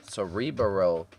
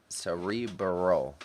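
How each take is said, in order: Both takes have the same delivery.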